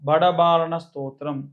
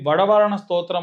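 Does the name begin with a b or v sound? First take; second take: b sound; v sound. First: The name begins with a b sound. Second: The name begins with a v sound.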